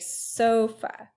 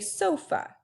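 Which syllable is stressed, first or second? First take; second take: first; second. First: The stress is on the first syllable. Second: The stress is on the second syllable. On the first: The speaker calls it right. "So this first syllable is stressed" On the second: The speaker calls it wrong. "On the so or the fa?"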